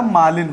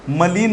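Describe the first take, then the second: First: मालिन with a long मा, stressed; correct form. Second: मलिन with a short म, marked as wrong; wrong form named. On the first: Teacher giving the right form मालिन to pupils. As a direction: stretch the मा in मालिन. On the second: Teacher contrasting मलिन with मालिन for pupils. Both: Shown as a demonstration. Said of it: "confusion होता है मलिन और मालिन में".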